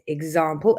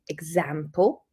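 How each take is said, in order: First: The stressed vowel is long, as in car. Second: The stressed vowel is short, as in cat. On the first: It is the Southern English pronunciation. "I say example" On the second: It is the Northern English pronunciation. "they say example"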